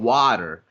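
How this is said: It is said with an American accent.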